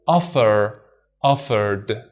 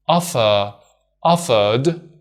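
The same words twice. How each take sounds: First: Offer, offered with no R, British style; other accent. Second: Offer, offered with the R sounded, American style; one accent. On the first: Teacher showing the ED ending stays d without the R. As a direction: drop the R in both. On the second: Teacher showing the ED ending stays d with the R. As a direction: say both with the R. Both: Shown as a demonstration. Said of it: "So we say".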